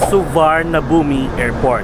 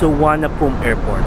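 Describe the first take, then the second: First: It is said with R, V and B sounds. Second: It is said with no R, W and P. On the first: The speaker calls it wrong. "if we will pronounce it by syllables" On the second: The speaker calls it right. "it should pronounce as"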